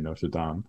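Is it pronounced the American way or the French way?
French. It is said the French way.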